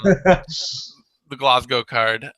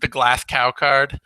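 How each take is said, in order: First: The name ends in a plain 'go' sound. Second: The name is said as 'Glass Cow'.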